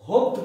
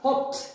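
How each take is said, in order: First: The word ends with a d sound. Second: The word ends with a t sound. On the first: The speaker calls it wrong. "হোপড বলবো না" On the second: The speaker calls it right. "ডিটা ট হয়ে যাচ্ছে"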